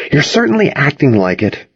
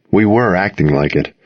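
First: "certainly" pitched high, teasingly; stress on certainly. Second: "were" given the main weight; stress on were. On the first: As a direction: lean on "certainly" as a knowing accusation. Friend teases about the romance. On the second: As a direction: concede it by leaning on "were". Narrator echoes and concedes the point. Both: A narrator's reading.

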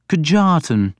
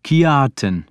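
First: "Kjartan" with a hard J, kuh-JAR-tan; mispronounced name. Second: "Kjartan" with J as Y, KYAR-tan; corrected pronunciation. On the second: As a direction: say "Kjartan" with a gliding Y for the J. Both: A narrator's reading. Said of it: "making the J sound like a Y".

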